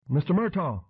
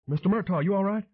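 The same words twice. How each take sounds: First: Urgent call. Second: Urgent call, pitched high. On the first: Calling to fallen man. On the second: Dan calling to the fallen man: worried, high call. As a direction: call out, worried and rising much higher. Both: A narrator's reading.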